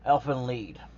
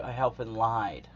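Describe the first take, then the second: First: The second word has a long 'ee' vowel. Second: The second word has an 'eye' vowel. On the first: The speaker calls it right. "That's how you say it" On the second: The speaker calls it wrong. "you might want to say Elfin lied because literally that is how it is spelled. But no, that's not it"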